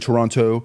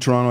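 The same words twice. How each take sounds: First: The name is said the way outsiders say it. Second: The name is said the way locals say it. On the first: The speaker sounds like an outsider. The speaker calls it wrong. "I don't say Toronto" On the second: The speaker blends in with the locals. The speaker calls it right. "I even say it right"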